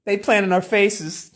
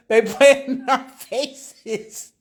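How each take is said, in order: First: Said in the usual way. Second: Slow, stretched through laughter; laughing. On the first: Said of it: "I was just like". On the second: Real, not acted. Streamer repeating the line while cracking up, slow laughing. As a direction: let the laugh drag the words out. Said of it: "I can't stop laughing".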